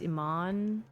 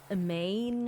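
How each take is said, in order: First: The name ends with an 'ahn' sound. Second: The name ends with an 'ain' sound. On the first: This is the name's actual pronunciation. The speaker calls it right. "but it's Iman" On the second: This is how other people say the name. The speaker calls it wrong. "people say Im Imane or something"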